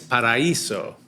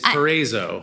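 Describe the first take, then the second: First: The name is said with a Latina accent. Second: The name is said with a New Jersey accent. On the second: "if you're from New Jersey, it's Paraiso"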